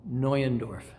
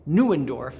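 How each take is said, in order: First: Neuendorf said the German way, NOY-en-dorf. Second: Neuendorf said the American way, NOO-en-dorf; anglicized Neuendorf. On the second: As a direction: say Neuendorf with a plain English "noo" at the start. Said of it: "he only knew that his name was". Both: Shown as a demonstration.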